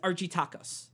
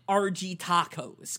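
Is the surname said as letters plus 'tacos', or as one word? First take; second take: one word; letters. First: The surname is said as one flowing word. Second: The surname is said as letters R G plus 'tacos'. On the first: This is the name as written. The speaker calls it right. "his surname is Argitakos" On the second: This is how the show's makers say it. The speaker calls it wrong. "they pronounce it RG Tacos because they're fucking American idiots"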